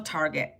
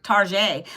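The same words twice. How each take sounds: First: Said in the usual way. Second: Target said as "tar-ZHAY"; mock-French Target. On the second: Playful mock-French store name.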